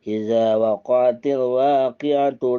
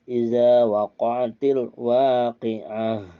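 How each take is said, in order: First: The last word ends with a t sound. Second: The last word ends with an h sound. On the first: The reciter joins this verse to the next. "kalau mau diwasolkan, mau disambungkan" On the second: The reciter stops after this verse. "kalau berhenti, dia bacanya ke ha"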